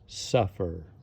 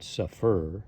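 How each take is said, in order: First: The stress is on the first syllable. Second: The stress is on the second syllable. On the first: The speaker calls it right. "So the sound is suffer" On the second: The speaker calls it wrong. "not suffer"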